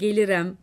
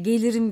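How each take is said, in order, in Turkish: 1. Son hecede e sesi var. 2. Son hecede i sesi var.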